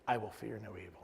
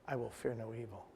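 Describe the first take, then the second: The two takes are said the same way.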